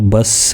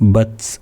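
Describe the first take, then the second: First: The final sound turns into an s. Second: The final t ends with a slight puff. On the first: The speaker calls it wrong. "ബസ് എന്നാകാനും പാടില്ല" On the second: The speaker calls it right. "അത് പറയേണ്ടത് ബത്സ് എന്നാണ്"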